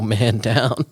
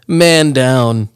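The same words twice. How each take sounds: First: Said in the usual way. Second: Loud, drawn-out call; mock emergency call. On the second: Friend reacts to the accidental shroom eater, mock alarm call. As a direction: call it out like a casualty report.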